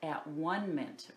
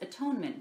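First: The middle syllable sounds like the word 'one'. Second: The middle syllable sounds like the word 'tone'. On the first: "I said at one-ment" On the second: "The real pronunciation is atonement"

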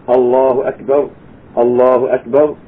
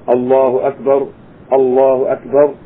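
No difference in how they are said.

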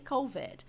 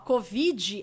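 First: It is pronounced with English sounds. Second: It is pronounced with Portuguese sounds. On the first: "in English we say COVID" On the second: "COVID é em português"

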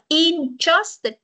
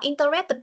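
First: The word is said with three syllables. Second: The word is said with four syllables. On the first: "Con này mình đọc là interested" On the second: "Nếu con đọc interested tức là nó có bốn âm"

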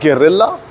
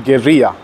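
First: The word is said with an English-style pronunciation. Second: The word is said with a Spanish-style pronunciation. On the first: The speaker calls it wrong. "it's not guerrilla" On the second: The speaker calls it right. "the actual pronunciation of the word, it's actually guerrilla"

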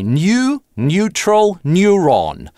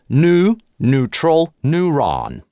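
First: It has a y sound after n. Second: It has no y sound after n. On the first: "В классическом ар пи" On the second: "В General American"

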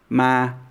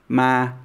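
First: The syllable is said in a flat, level tone. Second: The same.

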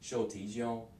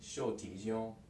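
Both takes have the same delivery.

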